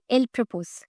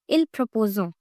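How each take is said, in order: First: The verb ends without an extra vowel sound. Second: The verb ends with an extra vowel sound. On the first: The speaker calls it right. "It should be il propose" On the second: The speaker calls it wrong. "most of the students pronounce it as il proposo, which is totally incorrect"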